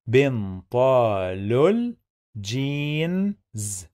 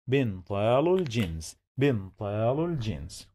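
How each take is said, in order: First: "بنطال الجينز" slowly, every syllable stretched; slow sounding-out. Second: "بنطال الجينز" quickly, joined into one phrase; connected speech. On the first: Teacher breaking down connected speech, slow and stretched. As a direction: draw out "بنطال الجينز" piece by piece, holding the vowels. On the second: Teacher showing connected speech, quick and joined up. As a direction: run "بنطال الجينز" together with no break. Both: Shown as a demonstration. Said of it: "Here we have connected speech".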